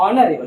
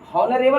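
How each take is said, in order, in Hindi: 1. इस शब्द की शुरुआत सीधे स्वर से होती है। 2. इस शब्द की शुरुआत एच की ध्वनि से होती है। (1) "इसको ऑनरेबल पढ़ेंगे, एच साइलेंट है" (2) "यहाँ तो हॉनरेबल नहीं पढ़ेंगे"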